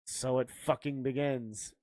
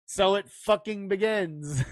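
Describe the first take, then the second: First: Lower, muted annoyance; annoyed. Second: Mock-grave, firmly delivered movie line; would-be chilling film quote. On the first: Retold or imitated. Co-host mimicking a failed chilling line, mildly annoyed. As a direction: say it as a grumble, mock-irritated. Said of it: "It just seems like you're annoyed". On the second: Joker quoting a battle line in the rain, mock-grave. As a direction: deliver it like an epic battle opener. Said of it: "as chilling when you say it like that in the rain".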